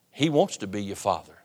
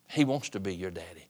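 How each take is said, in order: First: Said in the usual way. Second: "Daddy" said lower and much softer, intimate; a tender hushed promise. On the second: Shown as a demonstration. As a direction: drop low and soft on "He wants to be your Daddy". Preacher softens on repeated line.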